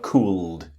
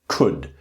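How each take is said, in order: First: The L sound is pronounced. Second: The L sound is silent. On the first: The speaker calls it wrong. "I know you can see the L here, but it's not cooled" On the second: The speaker calls it right. "it's could ... the L is silent"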